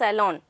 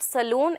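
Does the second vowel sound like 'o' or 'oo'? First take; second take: o; oo. First: The second vowel is an 'o' sound. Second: The second vowel is a long 'oo' sound. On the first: The speaker calls it right. "it is salon" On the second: The speaker calls it wrong. "So that is not saloon"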